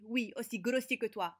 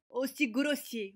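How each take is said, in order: First: Said in the usual way. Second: Slow, drawn-out aussi grossier with a higher pitch; slow emphasis. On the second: Acted. New girl slowly stressing "aussi grossier" at the rude boy. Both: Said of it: "ne te moque pas de mon accent".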